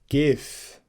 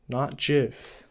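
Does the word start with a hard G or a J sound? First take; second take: hard G; J. First: It starts with a hard G sound. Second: It starts with a soft J sound. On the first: The speaker calls it right. "it's G I F" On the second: The speaker calls it wrong. "not J I F"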